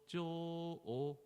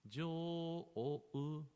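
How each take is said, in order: First: The long o stays a plain o sound. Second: The long o ends with a u sound. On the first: The speaker calls it wrong. "instead of jo o" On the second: The speaker calls it right. "like a jo o u"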